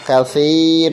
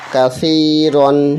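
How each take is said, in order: First: The word ends with a long a vowel. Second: The word ends with an n sound. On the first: The reader stops on this word. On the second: The reading continues without stopping.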